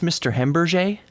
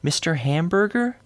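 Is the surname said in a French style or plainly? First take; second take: French style; plainly. First: The surname is said with a French-style sound. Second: The surname is said plainly, like the food.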